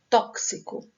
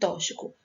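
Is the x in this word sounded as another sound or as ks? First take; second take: ks; another sound. First: The x is sounded as ks. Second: The x is not sounded as ks. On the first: The speaker calls it right. "a pronúncia correta é tóxico. Esse X tem som de K S" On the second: The speaker calls it wrong. "tem pessoas que pronunciam tóxico"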